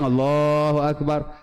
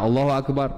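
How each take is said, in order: First: The phrase is drawn out long. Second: The phrase is said short and quick.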